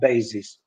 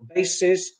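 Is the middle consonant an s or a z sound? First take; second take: z; s. First: The middle consonant is a buzzing z. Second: The middle consonant is a hissing s. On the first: The speaker calls it wrong. "not basis" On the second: The speaker calls it right. "we should use S instead of Z"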